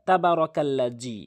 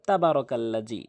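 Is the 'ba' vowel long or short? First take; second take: short; short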